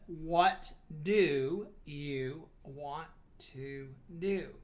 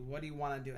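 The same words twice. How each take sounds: First: Each word is said separately, flat and robotic. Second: The words run smoothly together into one flow. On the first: The speaker calls it wrong. "You're going to sound like a freaking robot, boring, sleepy" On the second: The speaker calls it right. "blend your words seamlessly in conversation"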